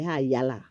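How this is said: It is pronounced the Bahamian way. "We say high yellow. That's the Bahamian dialect term"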